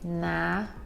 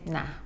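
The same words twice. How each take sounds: First: The word is drawn out long. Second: The word is said short and clipped. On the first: "It might be elongated slightly" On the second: "just say"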